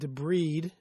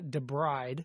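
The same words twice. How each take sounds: First: The ending does not sound like 'bride'. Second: The word sounds like 'the bride'. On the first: The speaker calls it right. "I think it's pronounced Debride" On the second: The speaker calls it wrong. "Debride is the woman who walks down the aisle of the church"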